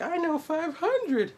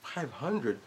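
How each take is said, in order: First: Put-on much higher, slow little-girl voice; high childish boast; little girl bragging. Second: Offhand. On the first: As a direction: proudly announce it like a small child. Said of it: "And the little girl was like". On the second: Retold or imitated. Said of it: "but she's just like".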